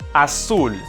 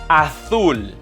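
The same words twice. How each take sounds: First: The Z sounds like an S. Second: The Z sounds like a TH. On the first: "that was the Latin American pronunciation" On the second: "pronounced as like the T H in the English word think"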